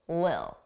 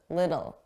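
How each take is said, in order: First: The middle consonant is dropped entirely. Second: The middle consonant is a soft D sound. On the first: "drop those sounds entirely and it will just sound like lil" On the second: "we pronounce that as a d, a soft D"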